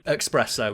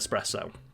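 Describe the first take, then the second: First: It begins with an 'ex' sound. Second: It begins with an 'es' sound. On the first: The speaker calls it wrong. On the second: The speaker calls it right.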